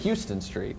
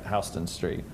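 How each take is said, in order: First: Houston is said like the Texas city. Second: Houston is said the New York way. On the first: This is how an outsider would say it. The speaker calls it wrong. "of course you think Houston Street, but that's not how you say it" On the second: This is how locals in New York say it. The speaker calls it right. "Not in New York, that's right, Houston Street"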